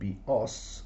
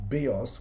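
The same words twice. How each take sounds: First: The accent is on the last syllable. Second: The accent is on the first syllable. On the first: It means a bow. "with the accent on the last syllable" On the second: It means life. "with the accent on the iota"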